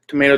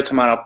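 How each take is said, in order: First: "tomato" with the middle rhyming with day; long-a tomato. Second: "tomato" with the middle like "ma"; broad-a tomato. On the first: Vlogger offering viewers a choice, "tomato" said as "tuh-MAY-toh". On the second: Vlogger offering viewers a choice, "tomato" said as "tuh-MAH-toh". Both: Shown as a demonstration. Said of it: "tomato, pick your choice".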